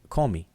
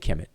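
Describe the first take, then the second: First: It is pronounced Komi, ending in i. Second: It is pronounced Kemet, ending in t. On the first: This is the Coptic pronunciation. "They say Komi" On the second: This is the usual modern reading. "they don't say Kemet"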